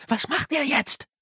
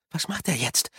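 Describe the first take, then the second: First: Much higher, urgent question; anxious repeat. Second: Hushed question. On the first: Susan watches from behind the cart, anxious. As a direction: press the question, pitched right up. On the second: First asking, then repeated urgently. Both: A narrator's reading.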